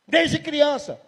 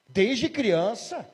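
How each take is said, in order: First: Demon confirming. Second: Slow, rising disbelief on "Desde criança?"; astonished question. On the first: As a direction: state it back coldly. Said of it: "E o demônio". (confirmação do demônio, mais alta) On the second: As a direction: stretch it out in shock. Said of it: "o pastor perguntou". (pergunta lenta e espantada) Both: Retold or imitated.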